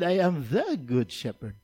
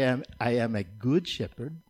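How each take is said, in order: First: "the" weighted in I am THE good shepherd; "the" pressed, rest of the line lighter; stress on THE. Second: Said in the usual way. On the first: Shown as a demonstration. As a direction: hit "the" to set it against "a". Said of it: "but He said". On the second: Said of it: "He didn't say".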